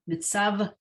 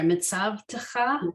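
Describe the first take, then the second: First: No t sound comes before the final cha. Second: A t sound comes before the final cha. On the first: The speaker calls it right. "No, I'm mispronouncing this word" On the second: The speaker calls it wrong. "I added a letter that wasn't there"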